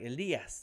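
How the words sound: The name is said with a Spanish pronunciation.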